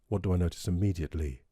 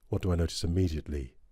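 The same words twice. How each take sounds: First: The voice sounds warm, clean and clear. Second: The voice sounds slightly pushed and forward. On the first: "I notice the warmth down there and the clarity" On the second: "a bit of a bit of a push there"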